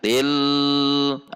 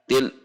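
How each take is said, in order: First: The L is held for a long time. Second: The L is cut off sharply from what follows.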